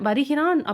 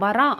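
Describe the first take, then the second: First: The verb is said in full, with every syllable. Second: The verb is said shortened, with syllables dropped. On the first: This is the form used in writing. "வருகிறான் அப்படிங்கிறத" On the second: This is the form used in everyday speech. "நான் வரான் அப்படின்னு சொல்கிறேன்"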